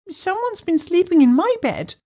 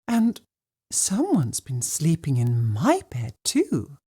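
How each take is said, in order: First: It is said in a high, squeaky voice. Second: It is said in a soft, gentle voice.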